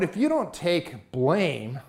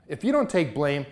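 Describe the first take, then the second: First: Slow, drawn-out warning with weight on you; slow emphasis. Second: Said in the usual way. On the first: Real, not acted. Youth speaker slowing down to warn listeners about blame. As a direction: lean in and slow right down on each word.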